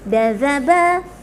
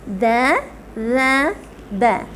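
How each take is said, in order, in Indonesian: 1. Hurufnya diucapkan cepat. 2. Hurufnya diucapkan normal.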